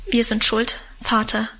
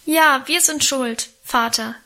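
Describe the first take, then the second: First: Firm, understated confession; steady, mildly brave declaration; brave admission. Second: Raised, lamenting assent; chiming-in confession. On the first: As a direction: own up bravely to father. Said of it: "erklärte Wilhelm tapfer". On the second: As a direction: join in the admission, drawn out. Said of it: "fielen wir anderen ein". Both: A narrator's reading.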